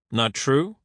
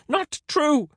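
First: Amused question, rising at the end; smiling query. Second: Very high scream of denial. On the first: Render turning Caesar's denial back on him, smiling query. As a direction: echo it with a smile, as a question. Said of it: "Render smiled". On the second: Caesar refusing Render's insult, high scream. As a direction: shriek it, pitched right up. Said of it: "screamed Caesar". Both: A narrator's reading.

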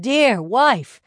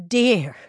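First: Dear wife called even louder and higher; louder exclamation. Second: Loud, falling call of dear; loud exclamation. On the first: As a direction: lift and push dear wife harder. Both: Acted. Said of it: "exclaimed the man".

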